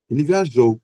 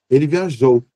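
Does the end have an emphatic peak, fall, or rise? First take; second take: emphatic peak; emphatic peak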